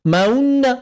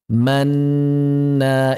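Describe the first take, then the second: First: An extra rounded 'u' sound follows the 'a'. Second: The vowel stays a plain 'a' sound. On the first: The speaker calls it wrong. "enggak mengubah suara menjadi maunna" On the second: The speaker calls it right. "ismam tidak bersuara"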